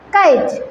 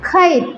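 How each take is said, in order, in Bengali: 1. k ধ্বনিটিতে কোনো শ্বাসের ফুঁ নেই। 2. k ধ্বনিটিতে একটা জোরালো শ্বাসের ফুঁ আছে। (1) "নট কাইট" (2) "তাহলে আমরা যদি খেই বলি খাইট"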